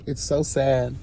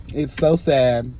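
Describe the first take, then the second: First: Said in the usual way. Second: "so" drawn out long, slow and heavy; slow sad repeat. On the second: Real, not acted. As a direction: let "so" sink, slower than the first take. Slower repeat of same words.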